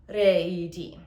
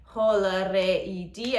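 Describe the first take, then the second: First: Sharp gasp then re i di sung; quick breath then yodel. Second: Slow sung ho la re i di, every syllable; sung, full yodel phrase. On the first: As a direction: sneak a breath, then sing re i di. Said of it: "I go". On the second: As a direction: sing all of ho la re i di. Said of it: "instead of". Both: Shown as a demonstration.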